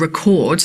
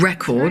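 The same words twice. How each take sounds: First: The stress is on the second syllable. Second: The stress is on the first syllable. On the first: It is the verb. The speaker calls it wrong. "like the verb" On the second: It is the noun. The speaker calls it right. "the noun, which is what Laura wanted here"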